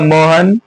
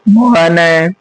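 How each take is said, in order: First: The name ends plainly on the n sound. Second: The name ends with an added breathy h echo. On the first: This is the Hindi form. "Hindi में तो क्या होगा मोहन" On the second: This is the Sanskrit form with visarga. "लेकिन संस्कृत में क्या होगा मोहन है"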